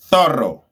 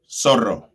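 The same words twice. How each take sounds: First: The z sounds like th, Spain style. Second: The z sounds like s, South American style.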